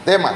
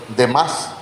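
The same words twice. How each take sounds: First: "Demas" stressed on the first syllable, as DE-mas. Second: "Demas" stressed on the final A, as de-MAS; stress on last syllable. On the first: Preacher corrects the name for congregation, "Demas" stressed on DE. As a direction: put the accent of "Demas" on the E. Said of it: "con acento en la E". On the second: Preacher reads out the misprinted name, "Demas" stressed on MAS. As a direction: read "Demas" with the accent landing on MAS. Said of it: "Pero es que acá dice ... Allá debe ser Demas". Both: Shown as a demonstration.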